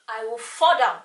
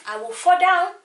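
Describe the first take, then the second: First: Said in the usual way. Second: I will fall down, FALL punched high and loud; emphatic. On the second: Shown as a demonstration. Repeating it for effect: louder, higher "fall down".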